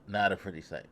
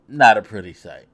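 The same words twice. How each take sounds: First: Soft echo. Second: Emphatic. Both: Real, not acted.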